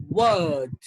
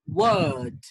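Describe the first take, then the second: First: The vowel is stretched out and long. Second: The same.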